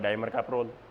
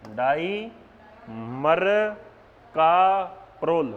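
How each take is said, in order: First: It is said joined together without pauses. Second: It is split into separate parts with pauses. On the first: "फिर इकट्ठा बोल दो" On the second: "ऐसे तोड़ तोड़ के याद करा"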